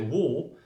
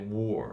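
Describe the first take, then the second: First: It has a British accent without the R. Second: It has an American accent with the R.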